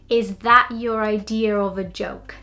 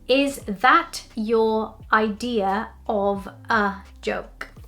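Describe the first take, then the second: First: The words run together with linking sounds. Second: Each word is said separately without linking. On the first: "then I'm going to say it with linking" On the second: "I'm going to say it without linking"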